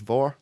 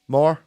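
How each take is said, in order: First: The word begins with a V sound. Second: The word begins with an M sound. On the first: The speaker calls it right. "that's how you pronounce M H in Scots" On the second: The speaker calls it wrong. "It's not more"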